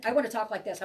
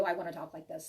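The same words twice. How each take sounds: First: Rushed, hurried demo of chatter; rapid, jumbled talk; talking really fast. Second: Calm, unhurried reading tone. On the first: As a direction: race through the words like a scattered mind. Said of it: "I wanna talk really fast". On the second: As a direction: ease down into a measured reading voice. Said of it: "When I'm reading for you". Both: Shown as a demonstration.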